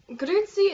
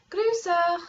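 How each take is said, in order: First: Grüezi said Swiss German style, raised; Grüezi with Zurich German sounds; Zurich German greeting. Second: Grüße said the Bernese way; Grüße with Bernese German sounds; Bernese greeting. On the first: Vlogger explaining dialects, Zurich German pronunciation. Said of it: "is Zurich German". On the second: Vlogger explaining dialects, Bernese pronunciation. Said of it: "is, like, Bernese German". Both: Shown as a demonstration.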